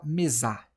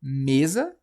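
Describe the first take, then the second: First: Mesá with the stress wrongly moved onto the final ZA; mesá ending on a strong open A; stress on last syllable. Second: Mesa with stress on ME, loud, rising as a question; stress on first syllable. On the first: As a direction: hit the end of mesá, me-ZA. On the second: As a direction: lean on ME in mesa, asking. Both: Shown as a demonstration. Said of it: "ou a gente fala mesá".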